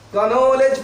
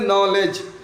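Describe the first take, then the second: First: It starts with a pronounced k sound. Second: It starts directly with an n sound. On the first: The speaker calls it wrong. "कनॉलेज पढ़ सकते हो, लेकिन गलत हो जाएगा" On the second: The speaker calls it right. "इसको क्या पढ़ोगे, नॉलेज"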